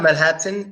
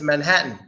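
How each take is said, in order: First: The T sound is clearly pronounced. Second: The T sound is silent. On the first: The speaker calls it wrong. "That's not" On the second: The speaker calls it right. "both quiet"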